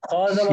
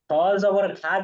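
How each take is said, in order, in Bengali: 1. শেষ স্বরধ্বনিটি হ্রস্ব। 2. শেষ স্বরধ্বনিটি টেনে দীর্ঘ করা হয়েছে। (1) "মাশাআল্লাহ" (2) "হলো না তো, আমরা তো এখানে খাইতে বসি নাই"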